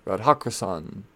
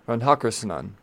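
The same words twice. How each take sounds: First: Radhakrishnan said as "rad-ha-kri-san"; syllable missing. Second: Radhakrishnan said as "rad-ha-kri-suh-nan"; extra syllable added. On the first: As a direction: run the end of Radhakrishnan together as "kri-san". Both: Real, not acted. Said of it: "there should be another syllable in there".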